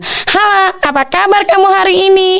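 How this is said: It is said in a small, high voice. "Kalau suara kecil"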